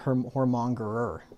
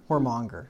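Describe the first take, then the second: First: The word ends with an extra er syllable. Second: The word ends with the syllable monger. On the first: The speaker calls it wrong. "I've been saying that wrong forever" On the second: The speaker calls it right. "Did I say it right? Mm-hmm"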